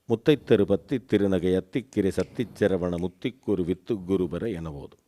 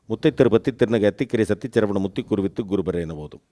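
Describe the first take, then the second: First: It is recited at medium speed. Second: It is recited fast.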